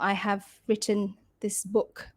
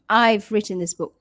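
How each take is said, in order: First: The words 'I have' are said in full. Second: 'I have' is contracted to 'I've', said faster. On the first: "you would say I have" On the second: "If you would say it faster"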